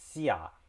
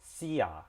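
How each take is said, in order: Both takes have the same delivery.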